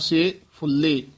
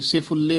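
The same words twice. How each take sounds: First: The two words are separated by a short break. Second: The two words are run together without a break. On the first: The speaker calls it right. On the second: The speaker calls it wrong.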